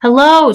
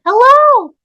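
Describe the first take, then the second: First: Loud, raised searching call. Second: Very high, loud squeaky mimic; toy echo. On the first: Acted. Woman searching for the toy, calling out. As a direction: call out to find someone hidden. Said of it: "she called". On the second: Toy mimics the calling woman, squeaky echo. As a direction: squeak it back like a talking toy.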